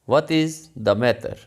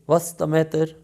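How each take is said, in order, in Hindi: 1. 'What' और 'is' अलग-अलग शब्दों की तरह बोले जाते हैं। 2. 'What' और 'is' जुड़कर एक तेज़ अक्षर बन जाते हैं।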